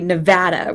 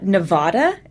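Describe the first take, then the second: First: The middle vowel is a short flat a. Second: The middle vowel is a broad ah sound. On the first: The speaker calls it right. "it's actually Nevada with, you know, that short A, like as flat an intonation as possible" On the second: The speaker calls it wrong. "It's not Nevada, as Kerry had said"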